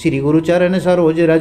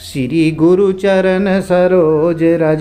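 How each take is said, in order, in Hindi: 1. इसे जल्दी-जल्दी और हड़बड़ी में पढ़ा जाता है। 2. इसे धीरे-धीरे, नपी-तुली लय में पढ़ा जाता है। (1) "कविता की तरह फटाफट पढ़ ले जा रहे हैं, आपको ऐसे नहीं पढ़ना है" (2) "इस तरह से आप लयबद्ध तरीके से पढ़ते हैं"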